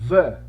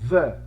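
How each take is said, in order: First: It uses the form said before a consonant. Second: The same.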